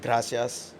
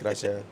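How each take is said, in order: First: The final s sound is pronounced. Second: The final s sound is dropped.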